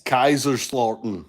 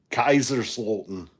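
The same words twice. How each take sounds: First: A German accent on the city name Kaiserslautern. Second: Kaiserslautern again with a mild German accent; a second, slightly lower go at Kaiserslautern in German accent. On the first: Grandson showing off a German accent for the family, in German accent. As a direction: try Kaiserslautern in your best German accent. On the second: Told to go ahead, he repeats it in German accent. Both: Shown as a demonstration. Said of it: "that was my best, uh, German accent".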